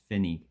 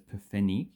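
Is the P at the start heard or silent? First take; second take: silent; heard. First: The P is silent and it starts with f. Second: The P at the start is clearly sounded. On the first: The speaker calls it right. "So it's f. So the P is pretty much silent" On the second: The speaker calls it wrong. "you don't pronounce those per Pfennig"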